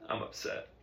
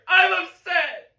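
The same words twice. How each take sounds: First: Very quiet, whispery mumble; cowed student's tiny voice; barely audible admission. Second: Very high, loud, drawn-out yell; student shouting at full strain; screamed admission. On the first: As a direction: admit it under your breath. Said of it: "Say it so the whole band can hear you". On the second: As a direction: scream it out at the breaking point. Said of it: "say it louder". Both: Acted.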